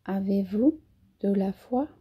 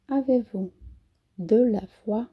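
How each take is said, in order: Both takes have the same delivery.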